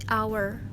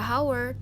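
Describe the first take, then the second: First: The word starts with no h sound. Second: The word starts with an audible h sound. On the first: The speaker calls it right. "huruf H-nya silent" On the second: The speaker calls it wrong. "bukan dibaca"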